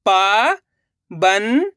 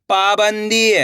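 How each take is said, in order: First: पाबंदी split into slow syllables. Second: Said in the usual way. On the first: Shown as a demonstration. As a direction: sound out पाबंदी. (पाबंदी को अक्षर-अक्षर बोलना) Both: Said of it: "अब आगे देखिए".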